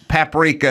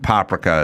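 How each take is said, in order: First: It is said the American way. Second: It is said the Hungarian way. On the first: "paprika is the American version" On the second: "paprika is the Hungarian version"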